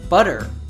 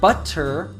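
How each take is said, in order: First: The middle consonant is a soft D sound. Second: The middle consonant is a clear T sound. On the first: "it sounds like a D" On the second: "instead of"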